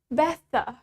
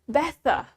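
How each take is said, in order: First: The middle consonant is a clear t. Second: The middle consonant is a clear t.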